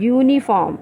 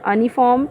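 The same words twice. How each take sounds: First: The word begins with a y sound. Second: The word begins with a plain vowel. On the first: The speaker calls it right. "it is starting with y sound" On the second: The speaker calls it wrong. "not uniform"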